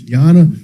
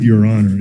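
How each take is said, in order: First: The words are run together into one word. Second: The two words are said separately and fully. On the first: The speaker calls it right. "You got to say it right" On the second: The speaker calls it wrong. "it's not Your Honor"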